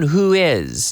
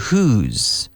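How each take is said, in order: First: The two words are said separately. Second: The two words are linked into one.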